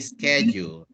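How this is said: It is said with an American accent. "The Americans will say"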